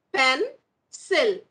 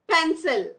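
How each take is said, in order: First: "Pencil" split with a pause, Pen - cil; broken into syllables. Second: Said in the usual way. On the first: Shown as a demonstration. Teacher showing two syllables to children, split syllables. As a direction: say "Pencil" as two separate beats. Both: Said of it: "Here we have two syllables".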